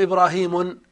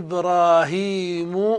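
First: The name ends with an added n sound. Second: The name ends without an added n sound. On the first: The speaker calls it wrong. "ما تقول إبراهيم بالتنوين كما تقول محمد" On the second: The speaker calls it right. "تقول جاء إبراهيم مسرعا"

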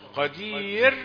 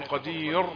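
First: The final r sound is light and thin. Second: The final r sound is heavy and full. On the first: The speaker calls it right. "كل هذه الألفاظ راءها رقيقة" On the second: The speaker calls it wrong. "لا تقول قدير"

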